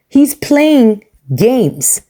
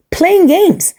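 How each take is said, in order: First: Slow, drawn-out whisper; hushed aside to the viewers. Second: Pitched-up emphatic repeat; high, incredulous echo of the whisper. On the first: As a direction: lean in and whisper it like a secret. Calls out the husband. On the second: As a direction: throw it back up high in disbelief. Repeats it loudly. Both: Real, not acted.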